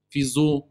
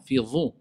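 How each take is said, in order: First: Zu with a buzzing Z; wrong consonant. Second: Dhu with an emphatic voiced DH; correct consonant. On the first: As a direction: mispronounce it as fi zu, Z replacing DH. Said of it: "Non, fi dhu". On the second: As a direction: say fi dhu, tongue-tip DH, never Z. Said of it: "C'est le dha". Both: Shown as a demonstration.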